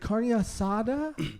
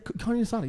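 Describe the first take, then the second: First: Each syllable is pronounced with exaggerated care. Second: The phrase is pronounced smoothly and naturally.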